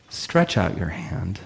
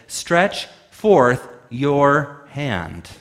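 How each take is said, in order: First: A slow, quiet, measured command; Jesus quietly tells the man to stretch out his hand; Jesus's command. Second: Very slow, every word weighted as a command; with authority. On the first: Slow quiet command. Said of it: "And Jesus says". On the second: Jesus commands the man with authority, slowly. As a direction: deliver "Stretch forth your hand." like a royal decree. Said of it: "he spoke in a generative way, a way of authority and power". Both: Retold or imitated.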